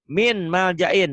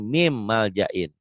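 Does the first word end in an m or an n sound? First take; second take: n; m. First: The first word ends with an n sound. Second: The first word ends with an m sound.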